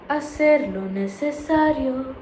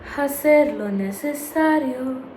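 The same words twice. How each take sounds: First: The H at the start is silent. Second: The H at the start is pronounced aloud. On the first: The speaker calls it right. "I never sound out the H. It's always" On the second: The speaker calls it wrong. "But I don't say hacer lo necesario"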